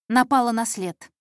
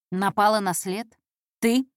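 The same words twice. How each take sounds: First: Intern announces a lead, НАПАЛА НА СЛЕД as a falling statement. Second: НАПАЛА НА СЛЕД thrown back with rising tune; sceptical echo question. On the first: Intern reports to the boss, НАПАЛА НА СЛЕД stated firmly. News told, then echoed back. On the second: Boss doubts the intern, НАПАЛА НА СЛЕД rising sceptically. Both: Acted.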